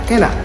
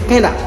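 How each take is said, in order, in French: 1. Les deux mots se fondent en un seul. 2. Les deux mots se fondent en un seul.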